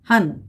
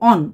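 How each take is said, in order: First: The syllable has an open 'a' vowel. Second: The syllable has a rounded 'o' vowel. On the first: This is how it is said in Hindi. "তখন রোহানই বলতে লাগে" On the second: This is how Bengalis say it. "এটা বাঙালিরা বলে"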